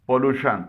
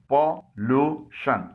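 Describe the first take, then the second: First: Said in the usual way. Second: पॉल्यूशन stretched slowly into three syllables. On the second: Shown as a demonstration. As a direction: spell out पॉल्यूशन beat by beat, slowly. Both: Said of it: "इसके तीन हिस्से हैं".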